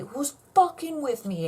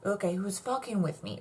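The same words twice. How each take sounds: First: Louder, pushier repeat. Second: Said in the usual way. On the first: Real, not acted. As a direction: demand it louder and higher the second time.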